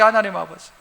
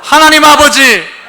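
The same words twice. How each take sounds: First: 하나님 아버지 said soft and low; a quiet humble prayer. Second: 하나님 아버지 shouted, slow and loud; the whole congregation crying to God; shouted prayer. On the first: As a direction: murmur 하나님 아버지 gently. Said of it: "하는 게". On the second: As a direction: cry out 하나님 아버지 with full force. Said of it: "한번 해볼까요?". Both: Shown as a demonstration.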